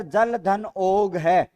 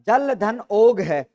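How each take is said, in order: First: जल धन ओग है drawn out word by word at an even level; teacher reading the option जल धन ओग है slowly for the class; slow dictation. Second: Teacher repeating जल धन ओग है firmly, stressing ओग; slow emphatic repeat. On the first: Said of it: "आपके सामने है sir". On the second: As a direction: drive जल धन ओग है home, leaning on ओग. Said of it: "क्या है sir?". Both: Shown as a demonstration.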